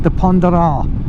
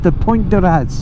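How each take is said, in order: First: The name is given a French pronunciation. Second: The name is given an English pronunciation. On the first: "in the French pronounce it" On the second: "as it's spelt as we would say it in English"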